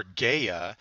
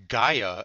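First: "Gaia" said GAY-uh; alternate pronunciation. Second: "Gaia" said GUY-uh; first pronunciation. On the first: Lecturer offering another name for the goddess, GAY-uh. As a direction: say "Gaia" with a long "ay". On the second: Lecturer naming the Greek goddess, GUY-uh. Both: Shown as a demonstration. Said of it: "Gaia or Gaia".

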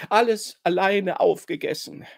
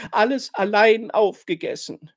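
First: Etwas höher, schluchzend wiederholt. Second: Höher und lauter, unter Tränen gestanden; schluchzend. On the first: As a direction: weinerlich gestehen. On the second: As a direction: schluchzend die Schuld bekennen. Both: A narrator's reading. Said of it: "schluchzt sie". (schluchzendes Geständnis)

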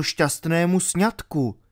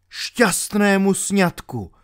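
First: Said in the usual way. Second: "Šťastnému sňatku" higher, slow and bitter; bitter echo. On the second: A narrator's reading. Knight echoes Albert about the wedding, bitter echo of "Šťastnému sňatku". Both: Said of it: "opakoval trpce rytíř".

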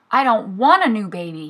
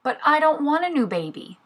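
First: Narrated little tiger's restrained shout; mild shout. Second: High-pitched little tiger protest; reluctant answer. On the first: Little tiger stamps his paw at Mommy, mildly shouted protest. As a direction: protest a touch louder, foot-stamping insistence. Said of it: "he shouted". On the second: Little tiger answers Mommy's baby news, high-pitched protest. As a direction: object in a higher voice, without shouting. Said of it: "Little Tiger answered". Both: A narrator's reading.

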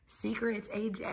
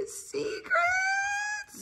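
First: Soft, higher hushing tone; playful hush; hushed warning. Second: Very high, drawn-out squeal; mock-secretive high squeal; playful warning. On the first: Pretend. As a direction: softly warn a child to keep quiet. Hushing nephew about secret breakfast. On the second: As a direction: squeak it out soft and long. Playfully repeats warning to nephew.

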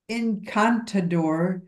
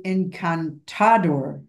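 First: Encantador slowly, weight on the second syllable "can"; English-accented encantador, drawn out, "can" stressed. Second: Encantador slowly, weight moved to "ta"; English-accented encantador, drawn out, "ta" stressed. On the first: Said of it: "where to put the emphasis". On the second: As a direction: say encantador leaning on the "ta" syllable. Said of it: "my brain thinks it should say". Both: Shown as a demonstration.

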